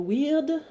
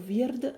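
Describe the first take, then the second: First: The word is pronounced the English way. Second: The word is pronounced the Old Norse way. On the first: "si on le prononce à l'anglaise" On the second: "si on le prononce en vieux norrois"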